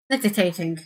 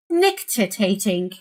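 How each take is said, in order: First: Said in the usual way. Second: "Nictitating" said slowly and carefully, each syllable clear; practising a word. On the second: Shown as a demonstration. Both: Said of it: "I don't know how to say that word".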